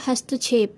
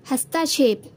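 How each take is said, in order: First: हस्तक्षेप with no full vowel after t, "hast-chhep"; correct form. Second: हस्तक्षेप with a full vowel, "hasta-chhep"; wrong form. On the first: Teacher giving the correct word, हस्तक्षेप as hast-chhep. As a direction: run the 'st' straight into 'chhep' in हस्तक्षेप. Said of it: "इसका शुद्ध रूप होगा". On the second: Teacher reading the wrong word, हस्तक्षेप as hastaa-chhep. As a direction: open up the 'ta' in हस्तक्षेप. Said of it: "हस्तक्षेप कुछ नहीं होता". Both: Shown as a demonstration.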